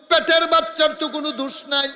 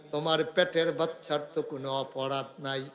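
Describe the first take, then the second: First: High, loud, quickly chanted; full-force preaching. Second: Said in the usual way. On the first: Acted. Prophet defending the unborn child, high preaching chant. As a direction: preach it fast on a raised pitch. Chanted repeat of calm line.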